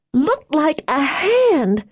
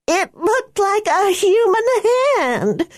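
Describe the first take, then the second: First: Put-on slow, high, frightened girl voice; scared, drawn-out words. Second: Higher, panicked shouted line. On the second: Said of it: "her voice a shout". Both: A narrator's reading.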